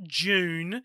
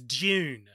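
First: The word starts with a full 'j' sound. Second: The word starts with a sound between 'd' and 'j'. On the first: The speaker calls it wrong. "It's not June" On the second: The speaker calls it right. "It's somewhere in between. It's Dune"

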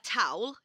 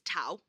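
First: The final L sound is clearly pronounced. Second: The final L becomes a vowel sound.

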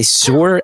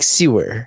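First: The word is said as one syllable, like sore. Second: The word is said as two syllables, sew-er. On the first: This is the speaker's hometown pronunciation. The speaker calls it wrong. "I still don't know how to say sore" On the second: This is how most of the country says it. The speaker calls it right. "They say like sewer"

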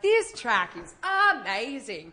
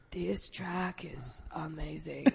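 First: It is said with excited, lively energy. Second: It is said flat and unexcited, in vocal fry. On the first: The words themselves express excitement. "They use adjectives that are like super exciting" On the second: The speaker does not actually feel the excitement. "But they say like"

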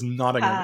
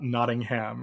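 First: The last syllable is weak and reduced. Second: The last syllable is a full 'ham'. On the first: The speaker calls it right. "one authentic British person in the cast who has clarified our pronunciations" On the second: The speaker calls it wrong. "It's not Nottingham, as those of us like me who grew up in Massachusetts with places like Framingham thought"

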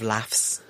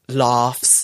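First: It is said in a northern English accent. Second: It is said in a southern English accent. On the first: "instead of laughs" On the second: "for you, I said ... laughs"

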